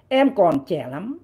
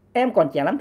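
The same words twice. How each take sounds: First: Slow quote. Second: Said in the usual way. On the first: Shown as a demonstration.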